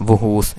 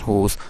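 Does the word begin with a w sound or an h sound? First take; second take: w sound; h sound. First: The word begins with a w sound. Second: The word begins with an h sound. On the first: The speaker calls it wrong. "There w is not actually pronounced" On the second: The speaker calls it right. "it is just whose"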